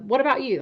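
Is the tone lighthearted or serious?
lighthearted. The tone is light and casual. The topic is no big deal. The speaker calls it right.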